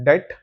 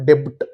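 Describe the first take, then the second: First: The b is silent, no b sound heard. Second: A clear b sound is heard before t. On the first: The speaker calls it right. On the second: The speaker calls it wrong. "Not ಡೆಬ್ಟ್"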